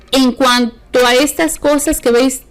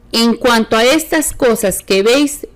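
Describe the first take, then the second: No difference in how they are said.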